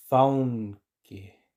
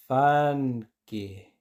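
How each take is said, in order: First: Faunque said slowly with au; teacher says it slowly for learners. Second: Fanke said slowly with a plain a; teacher says it slowly for learners. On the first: Slow au take. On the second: Slow plain take. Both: Shown as a demonstration. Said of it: "Y ahora lentamente".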